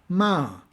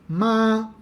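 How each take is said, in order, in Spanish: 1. El tono cae bruscamente desde alto. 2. El tono se mantiene alto y plano. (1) "el tono descendente" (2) "con un tono alto"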